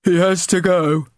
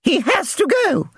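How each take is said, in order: First: High, cold and flat-out; cold bully. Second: Very high shriek; shrieking chairwoman. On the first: Bully boy deciding the old man must leave, cold. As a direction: say it coldly as a verdict. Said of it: "Ginger said coldly". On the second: Chairwoman mother addressing the residents' committee, shrieking. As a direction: shriek it from the stage. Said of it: "she shrieked". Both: Acted.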